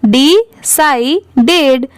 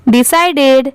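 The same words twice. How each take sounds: First: Decided slowly, syllable by syllable; decided split up. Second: Said in the usual way. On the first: Shown as a demonstration. Teacher showing how to read it, decided split up. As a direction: break decided into dee, sai, ded. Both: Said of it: "ऐसे आप पढ़ सकते हैं".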